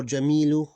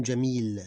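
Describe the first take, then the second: First: "Jamilu" louder, final u sounded; full vowel ending. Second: "Jamil" stopping on a held l; sukoon ending. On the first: Teacher giving the word before sukoon, vowel pronounced. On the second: Teacher showing what it becomes with sukoon, vowel dropped. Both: Shown as a demonstration. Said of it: "with sukoon ending".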